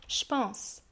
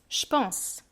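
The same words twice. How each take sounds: First: The vowel is dropped and j sounds like ch. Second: The same.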